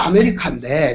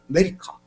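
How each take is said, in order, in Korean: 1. 첫 번째 모음은 완전히 발음돼요, 한 음절씩 또박또박. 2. 강세 받는 me 앞에서 첫 번째 모음은 거의 안 들려요. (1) "글자로 써놓으면" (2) "실제로는"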